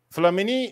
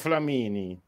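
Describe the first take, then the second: First: The name is pronounced the French way. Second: The name is pronounced the Italian way. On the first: "alla francese"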